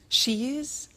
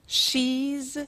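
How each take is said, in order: First: It is said as two full words. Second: It is said as one contracted word.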